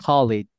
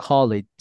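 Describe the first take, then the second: The two takes are said the same way.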